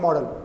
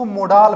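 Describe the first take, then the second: First: Almost no vowel is sounded before the final L. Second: A full vowel is sounded before the final L. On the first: The speaker calls it right. "Real pronunciation इसका होता है मॉडल, ल पे हलन type में होता है" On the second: The speaker calls it wrong. "कुछ लोग इसको मोडाल बोलते हैं"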